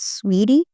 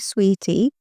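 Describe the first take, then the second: First: The t is a soft, d-like flap. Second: The t is a crisp, clear t. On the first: "تلفظ من الان آمریکایی هست سویری"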